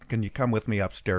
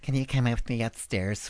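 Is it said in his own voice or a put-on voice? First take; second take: own voice; put-on voice. First: It is said in his normal voice. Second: It is said in the director's put-on voice.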